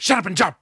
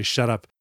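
First: Barked high and loud with no patience; impatient shouted order. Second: Said in the usual way. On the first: Retold or imitated. Gruff preacher yells at Susan to jump, loud impatient bark. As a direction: snap it at her, out of patience. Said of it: "he doesn't say, "Shut up." But he's like, there's no patience there". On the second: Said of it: "he doesn't say".

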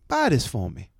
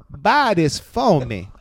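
First: Lightly voiced accented woman shopper; quick, accented repeat of her request; a hint of the woman's put-on voice; imitating woman customer. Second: BUY THIS FOR ME drawn out very slowly, louder and higher; worded out slowly. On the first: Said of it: "And she goes". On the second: Retold or imitated. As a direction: spell out "Buy this for me" word by word in her accent. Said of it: "she words it to me".

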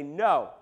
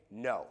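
First: A blunt, louder grumpy no; a flat, fed-up no with some push. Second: Low, quiet grumpy no from the fishermen; a curt, sulky no muttered low. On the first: Fishermen repeating their answer, blunt and grumpy. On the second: Fishermen answering the man on shore, low and grumpy. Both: Retold or imitated. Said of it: "Like a bunch of grumpy fishermen".

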